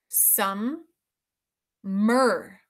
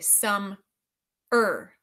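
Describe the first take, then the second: First: The m sound is said twice, once in each syllable. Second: The m sound is said once, joined into one syllable. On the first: "But listen carefully" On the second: "sometimes we say some er"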